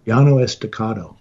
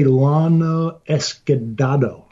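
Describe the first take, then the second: First: Llano Estacado, carefully copied from the co-host; corrected pronunciation. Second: Lana Escudado, a garbled Llano Estacado; mispronounced. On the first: Podcaster repeating the co-host's correction, corrected pronunciation. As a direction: say Llano Estacado with Esta-CA-do sounded out. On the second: Podcaster admitting he can't say a Spanish place name, mispronounced. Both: Real, not acted. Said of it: "I can't say".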